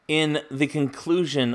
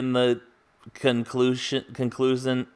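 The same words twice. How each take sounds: First: The stress falls on the normal syllable. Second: The stress falls on an unusual syllable. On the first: The speaker calls it right. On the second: The speaker calls it wrong.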